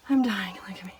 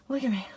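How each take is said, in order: First: Breathless whisper after hard work; winded whisper, worn out; out of breath. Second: Said in the usual way. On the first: Real, not acted. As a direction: gasp it out, spent from making the bed. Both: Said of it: "I am dripping with sweat".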